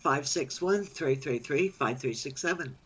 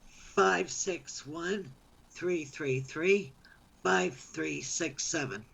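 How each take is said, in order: First: The number is said at normal speed. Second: The number is said slowly.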